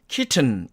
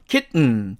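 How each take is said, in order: First: The middle t is clearly released before the ending. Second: The middle t is held without releasing the tongue. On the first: "영국식 발음으로 하면 kitten 이렇게 됩니다" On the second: "미국 사람들은요 ... t를 여기서처럼 튕겨주지 않는다"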